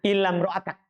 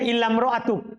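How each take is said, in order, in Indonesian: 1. Kata ini dibaca dengan vokal akhir 'a'. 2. Kata ini dibaca dengan vokal akhir 'u'. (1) "mereka baca bin nasbi dengan nasab ala istitna" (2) "membaca rofa sebagai badal min ahad"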